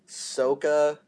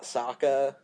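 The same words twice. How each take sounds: First: The first vowel is said the film's way. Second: The first vowel is said the show's way. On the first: The speaker calls it wrong. "Really? Sokka?" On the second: The speaker calls it right. "Not Sokka?"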